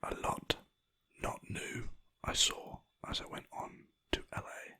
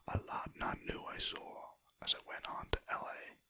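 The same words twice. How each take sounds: First: Said in the usual way. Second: A hint of a terrible American accent, whispered; mock a US accent, badly. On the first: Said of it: "same palindrome said again". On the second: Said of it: "That was a terrible American accent".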